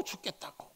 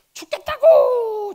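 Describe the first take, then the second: First: Drained whispered echo; Jonah's spent, whispered complaint. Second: High, loud wail of misery; anguished cry. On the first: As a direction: let it die away to a whisper. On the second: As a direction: cry it out like a dying man. Jonah complaining of heat. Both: Acted.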